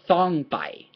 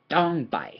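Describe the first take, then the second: First: The first consonant has a strong puff of air. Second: The first consonant is unaspirated, like the t in stand. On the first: The speaker calls it wrong. "it's not a thong folks it is not thong pai" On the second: The speaker calls it right. "but it is dong dong pai ... like this st stand sound"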